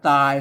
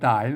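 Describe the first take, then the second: First: The word is said with a level mid tone. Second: The word is said with a rising tone. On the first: "ตายนะครับเสียงสามัญนะ" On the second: "ออกเสียงจัตวาตายนะ"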